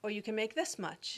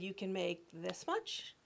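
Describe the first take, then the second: First: "this" stressed, falling; 「this」を強めて下げる; retold stress on this. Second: "much" held and lifted, slow and quiet; 「much」を上げて伸ばす、ゆっくり静かに; retold stress on much. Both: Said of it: "And she said".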